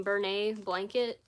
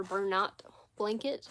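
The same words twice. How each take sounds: First: Bernay ending in an open "nay", silent T; French-style pronunciation. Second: Bernat ending in "nat" with a sounded T; alternative pronunciation. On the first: Streamer unsure of a yarn brand's name, French-style "Bernay". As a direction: say Bernay as French, rhyming with "day". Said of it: "it looks like Bernay to me. It looks like French or something". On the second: Streamer offering the other brand-name reading, T sounded in "Bernat". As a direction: say Bernat as spelt, final T heard. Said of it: "I don't know how people pronounce it". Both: Shown as a demonstration.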